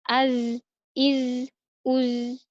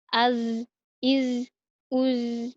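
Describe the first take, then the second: Both takes have the same delivery.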